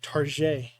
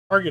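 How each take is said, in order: First: The word has a fancy, put-on pronunciation. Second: The word has an ordinary, plain pronunciation.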